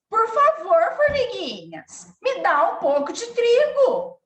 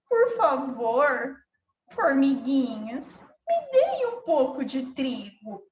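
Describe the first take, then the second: First: The voice sounds angry and harsh. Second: The voice sounds sad and downcast. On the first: The speaker feels angry. "Se ela tivesse com raiva" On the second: The speaker feels sad. "Se ela tivesse com tristeza"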